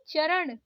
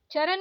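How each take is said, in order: First: चरण ending in curled-tongue ण; correct retroflex ण. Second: चरण ending in plain न; wrong dental N. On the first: Teacher correcting learners, retroflex चरण. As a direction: curl back for ण in चरण. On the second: Teacher showing learners the mistake, dental-N चरण. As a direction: say चरण as चरन. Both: Shown as a demonstration. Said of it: "नहीं".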